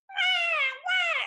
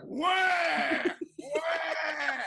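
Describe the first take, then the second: First: It is said in a high voice. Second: It is said in a deep voice.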